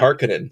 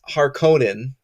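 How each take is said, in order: First: The name is said the newer film's way. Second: The name is said the older, 1984 way. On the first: This is how the new film says the name. "And in this movie, it's the" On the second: This is how the earlier film said the name. "in the eighty-four movie, it was Harkonnen. That's what it was pronounced"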